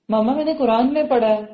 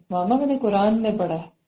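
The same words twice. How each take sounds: First: Mock confident daughter informing her mother; confident child. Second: Gentle, affectionate telling; loving. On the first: Child telling mother about the Quran, confidently. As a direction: tell mama with a child's assurance. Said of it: "یہ ہے confidence اولاد کا". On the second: Shown as a demonstration. Child correcting a parent, lovingly. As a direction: break it to mama tenderly. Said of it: "تو ایسے پیار سے کہے".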